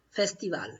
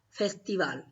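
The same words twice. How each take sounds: No difference in how they are said.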